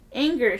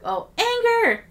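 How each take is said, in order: First: Raised voice, punched and higher; mild shout. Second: High, drawn-out dramatic yell; full shout. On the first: A narrator's reading. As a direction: shout it back, held in. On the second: Acted. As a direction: belt it out, much higher and louder. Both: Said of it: "she shouted back".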